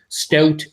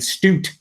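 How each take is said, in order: First: The vowel is a plain, non-Canadian 'ow' sound. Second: The vowel is a Canadian-style 'oo'-like sound.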